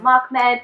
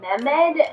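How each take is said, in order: First: The first vowel sounds like 'ah'. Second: The first vowel sounds like 'eh'. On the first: The speaker calls it right. "instead of Mahmed" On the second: The speaker calls it wrong. "I think I was saying it more like Mehmed"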